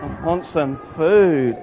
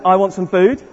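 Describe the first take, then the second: First: Slow, drawn-out whine, lower; hungry whine. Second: Said in the usual way. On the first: Shown as a demonstration. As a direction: drag it out like a starving moaner. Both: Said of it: "So let's do that".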